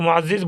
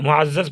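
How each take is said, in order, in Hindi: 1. आख़िरी z से पहले का स्वर 'i' है। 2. आख़िरी z से पहले का स्वर 'a' है। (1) "लोग मुअज़्ज़िज़ बोल देते हैं, गलत है" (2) "मुअज़्ज़ज़ पढ़िएगा"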